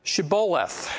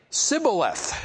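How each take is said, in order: First: Shibboleth begun with a clear SH; Shibboleth, the password, SH fully sounded. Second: Sibboleth begun with a plain S; Sibboleth, hissed S replacing the SH; S instead of SH. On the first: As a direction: say Shibboleth with a hushing SH at the start. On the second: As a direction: say Sibboleth with no H in the first sound. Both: Acted. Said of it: "They couldn't pronounce the S H".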